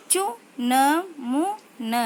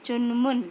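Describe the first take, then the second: First: चुनमुन drawn out very slowly, falling; slow syllable-by-syllable reading. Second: Said in the usual way. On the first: Shown as a demonstration. Teacher slowly sounds out चुनमुन for pupils. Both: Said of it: "शब्द पढ़ेंगे".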